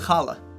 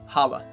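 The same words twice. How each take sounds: First: It starts with a harsh, throaty rasping sound. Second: It starts with a soft, plain h sound. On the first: "Same thing with challah" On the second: "or just challah"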